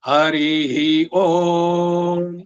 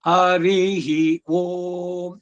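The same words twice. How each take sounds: First: The high pitch falls on the syllable Om. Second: The high pitch falls on the syllable ri. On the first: It opens the recitation. "ಹರಿಹಿ ಓಂ ಓಕಾರ ಉದಾತ್ತದಲ್ಲಿ ಬರುತ್ತೆ beginning ನಲ್ಲಿ" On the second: It closes the recitation. "ಕನ್ಕ್ಲೂಡ್ ಮಾಡ್ಬೇಕಾದ್ರೆ ಹರಿಹಿ ರಕಾರ ಇದೆಯಲ್ಲ ಅದು ಮೇಲಕ್ಕೆ ಹೋಗುತ್ತೆ"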